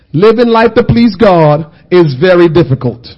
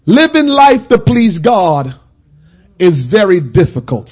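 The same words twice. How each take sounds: First: Louder, lower, hammered home; louder emphatic repeat. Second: Slow, each word laid down; slow weighty statement. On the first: Preacher repeating it louder for the congregation. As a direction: say it again with force. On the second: Preacher slowly setting up a call to the congregation. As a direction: set it down slowly for them to repeat. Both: Shown as a demonstration. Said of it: "Somebody say that".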